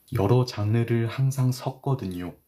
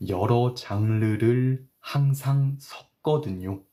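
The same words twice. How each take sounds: First: Said in the usual way. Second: Slow, careful read of 여러 장르를 항상 섞거든요. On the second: Shown as a demonstration. Teacher reads the example sentence slowly for students. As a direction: spell it out slowly for learners. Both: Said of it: "천천히 읽을게요".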